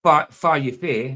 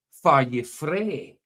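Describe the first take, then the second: First: "far you fae" slowly, f for wh and no r in "fae"; Doric pronunciation. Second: "far you frae" drawn out, with r in "frae"; Dundee pronunciation. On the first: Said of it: "I would say". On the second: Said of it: "somebody in Dundee would say". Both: Shown as a demonstration.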